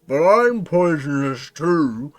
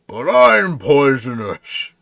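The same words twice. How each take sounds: First: Slow, loud, muffled words; mouth-full creature voice. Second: Slow, loud frog voice; giant frog. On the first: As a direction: talk round a big mouthful. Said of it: "tries to talk with its mouth full". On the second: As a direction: answer back as a big slow frog. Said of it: "you hear the frog say back". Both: Acted.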